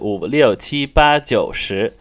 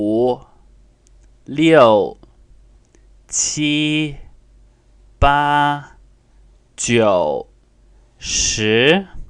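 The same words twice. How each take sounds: First: The numbers are counted quickly. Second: The numbers are counted slowly.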